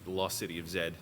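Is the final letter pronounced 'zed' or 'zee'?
zed. The last letter is said as 'zed', British-style. "as they say in the movie"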